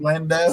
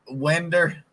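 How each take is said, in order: First: The word ends with an 'oh' sound. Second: The word ends with an 'er' sound. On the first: "instead of window" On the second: "a lot of Southerners will call it Winder"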